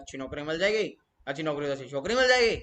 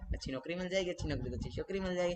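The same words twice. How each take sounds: First: It is said haltingly, without natural flow. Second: It is said smoothly, in a natural flow.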